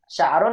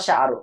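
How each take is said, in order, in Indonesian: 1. Kata ini berakhir dengan bunyi n tambahan. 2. Kata ini berakhir dengan vokal, tanpa n. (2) "atau tidak?"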